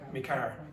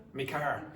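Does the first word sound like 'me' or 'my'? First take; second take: me; me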